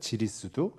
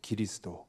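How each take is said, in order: First: It begins with a 'j' sound, ending 'du'. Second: It begins with a 'g' sound, ending 'do'. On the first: This is the modern Beijing pronunciation. "현대 북경어 발음으로는 지리스두라고 돼 있거든요" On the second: This is the older Chinese reading from the translation era. "그때 이 기리사독을 무엇이라 중국에서 읽었냐면요, 기리스도라고 읽었어요"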